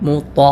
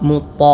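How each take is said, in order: No difference in how they are said.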